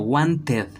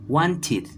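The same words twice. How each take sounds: First: The ending sounds like 'ed' as spelled. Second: The ending sounds like 'id'. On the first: The speaker calls it wrong. "no como wanted, no" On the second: The speaker calls it right. "sino como un id"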